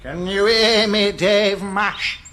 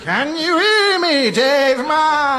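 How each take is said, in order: First: Spooky ghost voice. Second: High, slow ghostly wail; spooky ghost voice. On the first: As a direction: moan it like a ghost. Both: Acted. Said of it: "doing his spooky ghouly voice".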